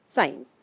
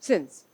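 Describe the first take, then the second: First: साइंस said as "science", long "aa-ee" vowel, low and clear; correct word science. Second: सिंस said as "sins", short i vowel, low and drawn out; सिंस pronounced as English sins, not science; mistaken word sins. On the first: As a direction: say साइंस fully as "saa-ins". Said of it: "जहां साइंस आना था वहां सिंस आ रहा है". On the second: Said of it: "लेकिन गलती से मैं लिख गई". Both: Shown as a demonstration.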